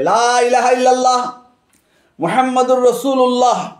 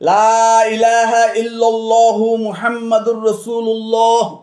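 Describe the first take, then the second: First: There is a pause after illallah. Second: There is no pause after illallah. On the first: Two separate statements about two different beings. "বিরাম চিহ্ন দিয়ে লা ওয়াকফ করে" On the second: The two statements run together as one sentence. "বিরাম চিহ্ন না দিয়ে বাক্য দুটিকে যদি একত্রিত করে"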